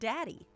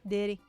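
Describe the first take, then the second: First: The first vowel sounds like the 'a' in cat. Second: The first vowel sounds like the 'i' in kid. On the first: It is the usual way of saying the word. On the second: It imitates how another person said the word.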